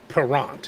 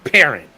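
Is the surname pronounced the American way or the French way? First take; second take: French; American. First: The surname is pronounced in a French way. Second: The surname is pronounced like the English word parent. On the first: "He's French, so you have to pronounce it Perrant" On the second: "But I'm from Saint Louis. We pronounce it Parent"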